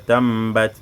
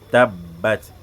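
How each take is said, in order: First: The doubled b is said with nasal sound. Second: The doubled b is said without nasal sound. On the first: The speaker calls it wrong. "tu dis pas tambat" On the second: The speaker calls it right. "sans nasima. Tu dis seulement ab, tabbat"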